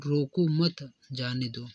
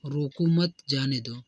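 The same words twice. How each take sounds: First: रोको मत held together, then जाने दो; pause after मत. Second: Said in the usual way. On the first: Shown as a demonstration. Teacher showing how pace matters, pausing after मत. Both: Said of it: "कभी मंद गति से करने".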